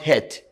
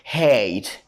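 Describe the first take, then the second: First: The vowel is a short 'eh' sound. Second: The vowel is a long 'ay' sound. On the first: The speaker calls it wrong. "not hate" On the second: The speaker calls it right. "but hate"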